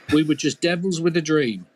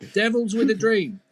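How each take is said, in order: First: Said in the usual way. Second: "devils with a dream" lifted higher, stress on "with"; dreamy repeat. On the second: A narrator's reading.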